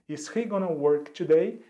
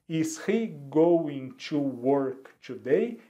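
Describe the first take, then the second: First: Going to is run together as gonna. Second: Going to is said as two full words.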